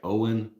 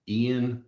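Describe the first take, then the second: First: The name is said like Owen. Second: The name is said like Ian. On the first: The speaker calls it right. "somebody said it was actually like Owen" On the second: The speaker calls it wrong. "I think I wanted to pronounce it Ian"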